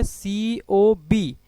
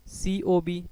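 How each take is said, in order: First: COB read very slowly, letter by letter; drawn-out angle name. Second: Said in the usual way. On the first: Shown as a demonstration. Teacher reads COB slowly for the class, drawn out. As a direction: stretch out COB, each letter separately. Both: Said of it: "इसको क्या बोलेंगे?".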